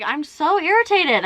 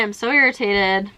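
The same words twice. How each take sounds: First: Irritated. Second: Said in the usual way. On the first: Real, not acted.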